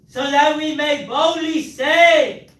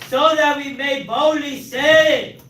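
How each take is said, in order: The two takes are said the same way.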